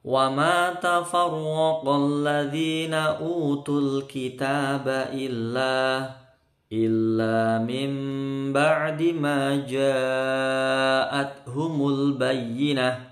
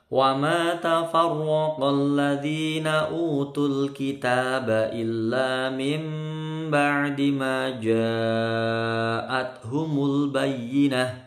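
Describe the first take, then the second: First: It stops after illa, then repeats illa. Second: It is read straight through in one breath. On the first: The reader ran out of breath. "Tadi saya berhenti sampai illa karena tidak kuat" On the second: The reader had enough breath. "kalau kuat nafasnya sekali baca bisa"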